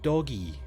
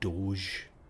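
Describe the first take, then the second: First: The word is said as two syllables. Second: The word is said as one syllable. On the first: This is how the spelling looks to the speaker. "it looks to me as if you're going doggy" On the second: This is how others say it. "supposed to be pronounced Doge"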